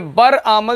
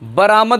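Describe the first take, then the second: First: The two parts are said separately, with a break. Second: The r runs straight into the long vowel. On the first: The speaker calls it wrong. "ये बर आमद नहीं होता" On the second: The speaker calls it right. "क्या बरामद होता है"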